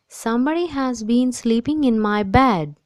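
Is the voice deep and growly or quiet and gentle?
quiet gentle. It is said in a quiet, gentle voice.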